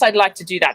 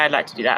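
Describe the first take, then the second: First: It sounds lively and enthusiastic. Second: It sounds flat and unenthusiastic.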